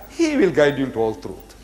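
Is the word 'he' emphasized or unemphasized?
unemphasized. The pronoun 'he' is not emphasized.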